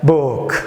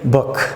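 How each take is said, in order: First: The vowel is drawn out long. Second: The vowel is short and clipped. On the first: The speaker calls it wrong. "which is incorrect" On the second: The speaker calls it right. "You better say book"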